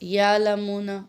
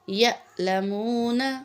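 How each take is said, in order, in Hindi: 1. हमज़ा को नरमी से निकाल दिया जाता है। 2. हमज़ा तेज़ और झटके वाला होता है। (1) "ये गलत हो जाएगा।" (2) "हमने इसको झटके से पढ़ना है"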